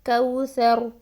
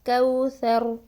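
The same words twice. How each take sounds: Both takes have the same delivery.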